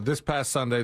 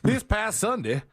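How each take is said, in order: First: It is read in a normal everyday voice. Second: It is read in an old-fashioned announcer voice.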